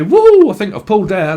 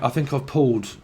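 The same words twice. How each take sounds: First: Loud, high British lad cheering he's pulled; British geezer bragging, louder; British lad accent. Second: Said in the usual way. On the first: Retold or imitated. Reader mimics a British lad in a club, cheeky British accent. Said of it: "in Britain, we would say". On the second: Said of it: "we would say".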